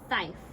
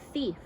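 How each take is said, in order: First: The vowel is a long I sound. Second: The vowel is a long E sound. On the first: The speaker calls it wrong. "I'm going to try the long I sound" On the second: The speaker calls it right. "let me try the e, long E"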